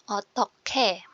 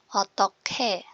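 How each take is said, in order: First: The middle consonant is an aspirated k sound. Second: The middle consonant is an aspirated k sound.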